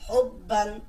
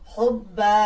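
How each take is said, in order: First: The word ends with a short 'an' sound. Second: The word ends with a long 'a' sound. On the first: The reading continues without stopping. "হা বা পেশ হব বা আলিফ দুই জবর বান" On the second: The reading stops on this word. "কিন্তু থামার কারণে হবে হচ্ছে হব্বা"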